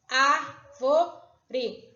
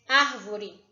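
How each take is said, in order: First: "Árvore" slowly split ár-vo-re; syllable by syllable. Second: Said in the usual way. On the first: Shown as a demonstration. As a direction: sound out "Árvore" in three separate beats. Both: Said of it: "Eu abri a minha boca três vezes".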